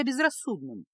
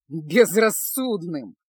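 First: Said in the usual way. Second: БЕЗРАССУДНЫМ drawn out loudly; stretched-out, scoffing БЕЗРАССУДНЫМ; nervous, incredulous echo. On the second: A narrator's reading. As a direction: throw БЕЗРАССУДНЫМ back, slow and loud. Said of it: "нервно засмеялся Кайл".

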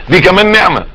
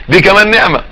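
No difference in how they are said.

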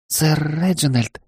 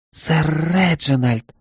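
First: Shy maid voice. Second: Higher, slow, drawn-out gasp of the name; a startled maid, stretching the name. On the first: Embarrassed maid protests. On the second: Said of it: "Она ахнула". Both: Acted.

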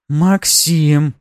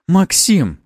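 First: «Максим» high, loud and drawn out; changed tone. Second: High, loud, abrupt call; sharp exclamation. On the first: Noblewoman's tone changes, «Максим» as a drawn-out appeal. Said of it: "её тон изменился". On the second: Noblewoman reprimands Maxim, sharp exclamation. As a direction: cry the name out as a reprimand. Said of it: "а вот сейчас воскликнула боярыня". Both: A narrator's reading.

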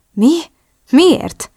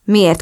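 First: Much higher, rising startled questions; taken aback. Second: Said in the usual way. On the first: A narrator's reading. Drew learns Oliver was behind it, surprised. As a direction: blurt it out in surprise. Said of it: "lepődött meg".

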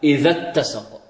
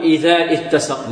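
First: "إذا اتسق" joined, short dha straight into doubled t; correct linked reading. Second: "إذا اتسق" slowly, long dha then a separate "it"; wrong unlinked hamza. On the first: Teacher corrects the slip, "إذا اتسق" as idhat-tasaq. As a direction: drop the hamza, linking "إذا اتسق". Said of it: "لا، إذا اتسق". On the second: Teacher shows what not to say, "إذا اتسق" as idhaa ittasaq. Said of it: "لا نقول". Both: Shown as a demonstration.

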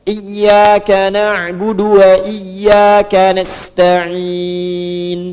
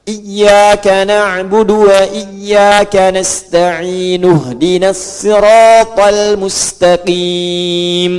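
First: "nasta'in" held long, closing on a vowelless n; slow chant, ending "nasta'in" on bare n; stop with sukun. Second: "nasta'in" sounded as nasta'inu, linked to "ihdinas"; slow chant, no stop after "nasta'in", adding u; joined recitation. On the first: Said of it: "Kalau berhenti, sukunkan". ("nasta'in" dilantunkan, berhenti dengan sukun) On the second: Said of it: "Ujungnya harakatnya u kalau disambung". ("nasta'in" disambung jadi nasta'inu, dilantunkan) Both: Shown as a demonstration.

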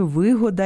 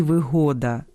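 First: ВИ́года, first syllable stressed; вигода with the stress on ВИ. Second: ВиГО́да, second syllable stressed; вигода with the stress on ГО; stress on middle syllable. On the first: (наголос на першому складі: ви́года) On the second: (наголос на другому складі: виго́да) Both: Shown as a demonstration. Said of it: "місце наголосу впливає на значення".

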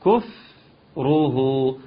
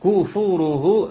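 First: كفره slowly with the fa unrounded, dammas round; correct. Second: كفوره with the fa rounded into an extra long oo; wrong, lips rounded on fa. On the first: Teacher giving the correct version after the mistake. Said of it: "انما". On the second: Teacher demonstrating a common mistake, slow. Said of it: "لا، خطأ". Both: Shown as a demonstration.

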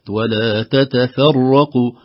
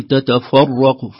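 First: Slow "تتفرقوا", thin "te-te-fe" before heavy rā; light tā and fā. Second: "تتفرق" with f darkened to "fɑ"; wrong heavy fā. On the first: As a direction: keep the opening of "تتفرقوا" light. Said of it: "نرقق التاءين في أول الكلمة". («تتفرقوا» بترقيق التاءين والفاء) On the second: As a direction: slowly thicken the f in "تتفرق". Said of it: "لا نقول تتفرق". («تتفرق» بتفخيم الفاء) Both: Shown as a demonstration.

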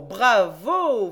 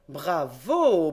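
First: Very loud, rising ironic cheer; Fred cheers the reporter once more; louder bravo. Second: Louder, ironic applause; mock-applaud the reasoning; Fred cheers the young reporter; loud bravo. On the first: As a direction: crown the applause with a big shout. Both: A narrator's reading. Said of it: "fit encore le grand Fred".

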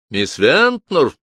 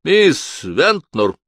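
First: Calling out. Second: Slow, loud call; raised voice. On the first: Acted. Calling secretary again. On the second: A narrator's reading. The lawyer calls for his secretary, raising his voice. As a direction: call her name down the hall. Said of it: "Эмберли повысил голос".

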